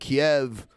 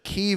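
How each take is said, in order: First: It is said with the Russian pronunciation. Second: It is said with the Ukrainian pronunciation. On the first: This is how Russians say it. "the way that Russians say it" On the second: This is how Ukrainians say it. "the way the Ukrainians say it"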